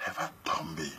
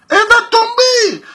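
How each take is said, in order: First: Unvoiced, hushed "Elle va tomber."; quiet aside. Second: "Elle va tomber!" called out much higher and louder, slowly; triumphant shout. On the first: Telling the men what happens next, in a whisper. Quiet setup before loud repeat. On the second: Telling the men she will give in, shouted in triumph. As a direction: trumpet "Elle va tomber!" as the big payoff. Loud punchline after quiet take. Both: Shown as a demonstration.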